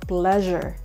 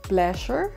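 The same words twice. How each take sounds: First: The middle consonant is a 'zh' sound. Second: The middle consonant is a plain 's' sound. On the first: The speaker calls it right. "So similarly" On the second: The speaker calls it wrong. "It's not pleasure"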